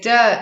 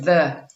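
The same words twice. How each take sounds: First: One sound in the word is altered. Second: Every sound in the word is standard. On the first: The speaker calls it wrong. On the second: The speaker calls it right.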